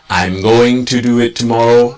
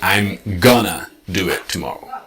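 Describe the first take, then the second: First: Going to is said as two full words. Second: Going to is contracted into gonna.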